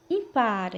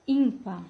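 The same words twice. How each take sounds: First: Impar stressed on PAR; Spanish final stress. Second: Ímpar stressed on ÍM; Portuguese first-syllable stress. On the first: Teacher reading the Spanish example, impar stressed on PAR. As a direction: say impar with the weight at the end. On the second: Teacher giving the Portuguese translation, ímpar stressed on ÍM. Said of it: "Português". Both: Shown as a demonstration.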